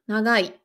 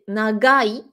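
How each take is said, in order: First: The middle consonant is a nasal, almost like n. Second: The middle consonant is a hard, stopped g. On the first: "presque comme un N" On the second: "je vais essayer de forcer"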